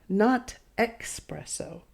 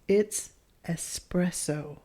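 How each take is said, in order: First: The word starts with an 'ex' sound. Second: The word starts with an 'es' sound. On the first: The speaker calls it wrong. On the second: The speaker calls it right.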